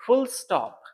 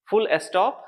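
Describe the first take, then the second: First: फुल स्टॉप with the s joined to फुल, said higher; फुल स्टॉप said carefully as fuls-top; correct pronunciation. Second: फुल स्टॉप said the common wrong way, s left on स्टॉप; फुल स्टॉप with a small extra vowel after फुल; wrong pronunciation. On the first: Teacher demonstrating the right फुल स्टॉप. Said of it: "इसको हम पढ़ेंगे". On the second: Teacher showing students the wrong फुल स्टॉप. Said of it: "तो ये गलत sound है". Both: Shown as a demonstration.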